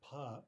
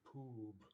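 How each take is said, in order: First: The vowel is a short open 'uh' sound. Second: The vowel sounds like a long 'oo'. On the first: The speaker calls it right. "It's really something very different" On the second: The speaker calls it wrong. "we don't say poob"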